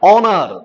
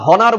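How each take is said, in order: First: The word starts with a vowel, no h. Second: The word starts with an audible h sound. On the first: The speaker calls it right. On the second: The speaker calls it wrong.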